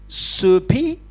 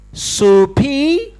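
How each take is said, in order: First: Soupy with a questioning rise, lightly mocking; mock pidgin soupy. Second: Soupy pitched higher and louder with a rising question; mock pidgin repeated louder. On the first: Mocking a delegate he doubts speaks English, soupy asked mildly. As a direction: tease the word soupy upward like a slow learner. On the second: Repeating to the Chinese delegate, Soupy asked higher and louder. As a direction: push Soupy up, hammed-up and insistent. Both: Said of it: "He says to the Chinese delegate".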